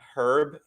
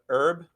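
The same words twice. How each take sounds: First: It has an audible h, British style. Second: The h is silent, American style.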